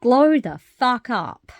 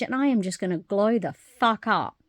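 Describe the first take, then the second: First: Louder, higher and slow, punching GLOW; quoting her mentor with a slow, loud, high rallying cry; mentor's rallying cry. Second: Said in the usual way. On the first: Retold or imitated. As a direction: belt it like a motivational slogan. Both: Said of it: "As Kim, one of my other mentors, says".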